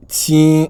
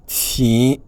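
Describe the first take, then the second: First: Ting high and louder; Chinese tone demo. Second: Ting on a rising tone; Chinese tone demo. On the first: Teacher contrasts Ting on a higher, louder tone. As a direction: pitch Ting up high and firm. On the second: Teacher models the rising tone of Ting. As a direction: lift Ting upward. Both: Shown as a demonstration. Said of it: "qui veut dire léger".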